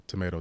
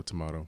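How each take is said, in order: First: "tomato" as tuh-MAY-toe; American tomato. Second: "tomato" as tuh-MAH-toe; British-style tomato. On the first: Shrugging off a name dispute, "tomato" said tuh-MAY-toe. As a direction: say "tomato" with a long A in the middle. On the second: Shrugging off a name dispute, "tomato" said tuh-MAH-toe. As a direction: say "tomato" with an AH in the middle. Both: Shown as a demonstration. Both ways of saying it.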